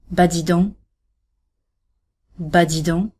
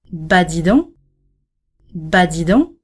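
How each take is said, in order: First: "Bah dis donc." in shocked dismay; "Bah dis donc." for bad news. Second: "Bah, dis donc." rising on donc, amazed; rising positive shock. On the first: Hearing a friend's mother was hurt, shocked. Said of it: "a descending intonation is similarly used to show shock". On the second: Hearing a friend's son won the lottery, amazed and rising. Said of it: "An ascending intonation is used to show a positive shock". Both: Shown as a demonstration.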